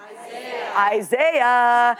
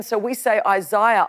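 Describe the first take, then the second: First: "Isaiah" in an American accent, eye-ZAY-uh. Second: "Isaiah" said the Australian way, eye-ZYE-uh; Aussie "Isaiah". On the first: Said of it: "they say, "Isaiah". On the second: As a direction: give "Isaiah" its Australian vowels. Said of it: "they say". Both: Shown as a demonstration.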